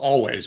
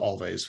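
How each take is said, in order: First: It sounds like the word always. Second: It has an l and v sound, alvays. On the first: This is how the band says its name. The speaker calls it right. "so it's Always" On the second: This is how the spelling suggests saying it. The speaker calls it wrong. "it looks like you would pronounce it Always"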